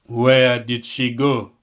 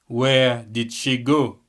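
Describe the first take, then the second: The two takes are said the same way.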